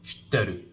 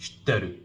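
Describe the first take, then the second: First: The middle i sound is dropped entirely. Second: The middle i sound is dropped entirely.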